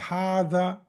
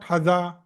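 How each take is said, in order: First: The first vowel is held long. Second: The first vowel is kept short. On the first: "why do we pronounce uh, this word as hada?" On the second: "Why not hada?"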